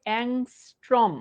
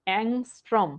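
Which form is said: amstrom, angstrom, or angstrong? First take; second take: angstrom; angstrom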